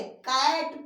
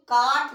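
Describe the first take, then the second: First: कैट with a drawn-out open "ae"; teacher's model कैट with "ae", not "aa"; correct AE vowel. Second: काट with a long "aa" vowel; wrong long-AA reading. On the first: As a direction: say कैट slowly as English cat, "kaet". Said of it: "कैट पढ़ेंगे". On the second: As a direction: misread cat as काट, "kaat". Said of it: "काट नहीं पढ़ेंगे". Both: Shown as a demonstration.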